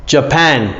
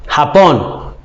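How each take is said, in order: First: "Japan" with a j sound, "juh-pan"; English Japan. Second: "Japón" with a Spanish h, "ha-pon". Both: Shown as a demonstration. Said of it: "Japón is Japan".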